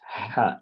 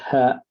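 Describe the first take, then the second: First: The h is squeezed tight in the throat. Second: The h is breathed out with an open throat. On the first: The speaker calls it right. "you put a letter pressure in this area, and the ha will come out" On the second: The speaker calls it wrong. "not ha. Ha usually it's this area will be opened freely"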